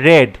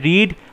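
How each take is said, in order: First: The vowel is short, as in 'red'. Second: The vowel is long, as in 'reed'. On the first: It is the past tense. "Past টেন্সে হয় রেড" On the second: It is the present tense. "Present টেন্সে হয় রিড"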